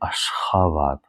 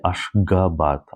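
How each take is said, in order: First: The middle consonant is an h sound. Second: The middle consonant is a hard g sound. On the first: The speaker calls it right. "I say Ashgabat, h" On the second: The speaker calls it wrong. "So I don't say Ashgabat"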